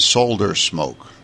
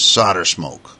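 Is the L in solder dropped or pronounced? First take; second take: pronounced; dropped. First: The L in solder is clearly pronounced. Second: The L in solder is silent. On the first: "the British ... actually pronounce the L" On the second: "we don't say the L. We don't say the L at all"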